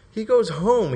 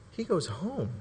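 First: HOME high, then falling; emphatic repeat. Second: Softly dropped answer; hushed reveal. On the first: Preacher repeating Peter's odd choice, emphatic. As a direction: drive the point home on HOME, raised pitch. Same words repeated with force. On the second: Preacher answering his own question, hushed. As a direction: let it land quietly. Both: Real, not acted.

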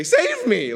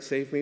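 First: A sudden high, loud plea; desperate cry. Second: Said in the usual way. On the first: Retold or imitated. Preacher voicing a drowning man, loud high plea. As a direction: cry out like a man going under. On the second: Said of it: "So it's just short to the point".

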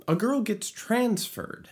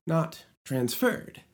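First: TRANSferred, natural spoken stress; right stress. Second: "transferred" with stress on -FERRED; wrong stress. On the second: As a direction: lean on the end of "transferred". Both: Shown as a demonstration.

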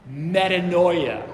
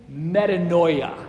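First: Metanoia said slowly again, clear and falling; slow teaching pronunciation. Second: Metanoia said slowly, each syllable clear, falling at the end; slow teaching pronunciation. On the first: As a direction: repeat metanoia slowly, me-ta-NOI-a. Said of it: "One more time". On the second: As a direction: spell out metanoia slowly, me-ta-NOI-a. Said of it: "Can you say that with me?". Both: Shown as a demonstration.

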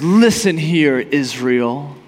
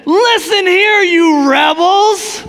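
First: Steady and composed, an easy command; calm, collected. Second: High, loud, slow furious address; angry. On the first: Moses confidently addresses Israel, calm and collected. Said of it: "He's calm, cool, collected". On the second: Enraged Moses rebukes the rebels, loud and slow. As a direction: spit out rebels in rage. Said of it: "it blows up in anger". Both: Retold or imitated.

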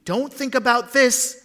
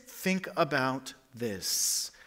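First: This punched high and loud; emphatic contrast. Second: "think" drawn out slowly and softer; quiet contrast. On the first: Preacher setting two thoughts apart, stress on this. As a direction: hit "this" in "Don't think about this". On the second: Preacher settling the right thought, slow and soft. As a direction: lean slowly on think in "think about this". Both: Shown as a demonstration. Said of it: "contrast of thoughts".

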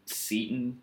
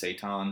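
First: "seitan" said SEE-tn; SEE-tan pronunciation. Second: "seitan" said SAY-tahn; SAY-tahn pronunciation. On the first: Telling how we say the vegan food, "seitan" as SEE-tn. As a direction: say "seitan" with a long EE and swallowed ending. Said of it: "is what we say". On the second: Guessing the proper name, "seitan" as SAY-tahn. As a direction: say "seitan" with AY first and an open AH ending. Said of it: "I think it's pronounced seitan". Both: Shown as a demonstration.

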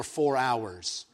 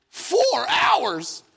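First: Said in the usual way. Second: High, incredulous mock outcry; shocked disbelief. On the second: Hears of the four-hour wait, mock-horrified disbelief. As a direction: echo it in comic horror, pitched way up.

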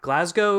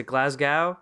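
First: "Glasgow" with a long O ending, like "go". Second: "Glasgow" with an OW ending, like "cow"; Glasgow ending in "gow". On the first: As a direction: say "Glasgow" to rhyme with "go". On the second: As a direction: say "Glasgow" to rhyme with "cow", questioning. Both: Shown as a demonstration. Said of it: "How do you say it?".

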